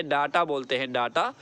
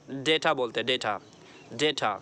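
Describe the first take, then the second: First: डाटा with a long "aa" in front; wrong pronunciation. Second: डेटा with "day" in front; correct pronunciation. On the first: Teacher quoting the mistake, first syllable "daa". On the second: Teacher giving the right word, "day-ta". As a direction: say डेटा as "day-ta", lower and falling. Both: Shown as a demonstration. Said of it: "ये गलत है".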